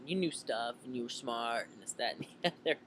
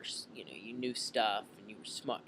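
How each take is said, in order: First: Lightly voiced casual teen; teenager impression. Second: Said in the usual way. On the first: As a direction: toss it off like a kid. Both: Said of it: "I'm trying to do my best teenager impression".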